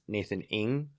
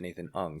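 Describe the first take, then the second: First: The surname is said with an 'ing' vowel. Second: The surname is said with an 'ung' vowel. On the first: This is how it is usually said in the United States. "in the States, usually it's" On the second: This is how it is said in Southeast Asia. "in the Southeast Asia, they would pronounce it"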